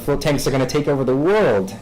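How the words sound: It is said persuasively, as if spreading an idea. The claim is an idea being spread further. "this idea that we're trying to spread further"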